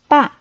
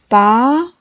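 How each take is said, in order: First: It is said with a sharply falling pitch. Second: It is said with a rising pitch. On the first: "and fourth tone"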